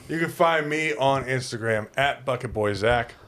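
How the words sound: It is said forcefully and aggressively. "I didn't mean for it to sound aggressive"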